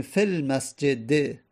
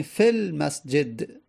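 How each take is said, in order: First: المسجد ending with a kasra, said fil masjede. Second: المسجد ending with no vowel, said fil masjed; ending dropped. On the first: Teacher shows the full form, المسجد ending with an e vowel. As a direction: end المسجد on a clear short e after the d. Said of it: "به مسجد باید کسره بدیم". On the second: Teacher shows the pausal form, the final d of المسجد left vowelless. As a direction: stop المسجد dead on a silent d. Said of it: "الان من ساکنش کردم مسجد رو آخرش". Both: Shown as a demonstration.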